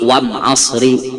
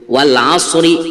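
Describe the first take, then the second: First: The article is said with an m sound. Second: The article is said with an l sound.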